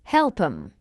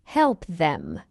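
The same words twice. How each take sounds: First: "Help 'em" linked, no th; reduced form. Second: "help them" as two full words; full form. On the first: Teacher shows learners the short form, reduced. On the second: Teacher explains what help 'em means, full form. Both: Shown as a demonstration. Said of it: "It means help them".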